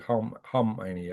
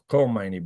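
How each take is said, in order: First: The name starts without a hard K sound. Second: The name starts with a hard K sound. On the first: The speaker calls it right. "but it's actually Khomeini. ... I guess it's silent in this case" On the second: The speaker calls it wrong. "I used to call him Khomeini"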